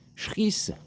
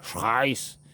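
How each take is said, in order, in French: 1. Il commence par sh et a une voyelle i brève. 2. Il a une voyelle ai et un son R. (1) "C H, ça peut faire Schriss" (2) "si tu mets un petit peu l'accent anglais, anglais ou allemand"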